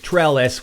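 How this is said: It is said with a French accent.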